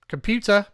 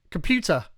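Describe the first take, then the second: First: "Computer" called out louder and higher, each syllable clear; louder wake word. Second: Said in the usual way. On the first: Real, not acted. Device not responding, so he calls it louder. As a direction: raise your voice so the device hears "Computer".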